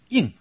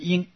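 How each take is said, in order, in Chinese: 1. 这个音节是明显的降调。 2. 这个音节是高平调。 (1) "另外一个四声啊，就是读成应" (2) "一种是一声，就是音"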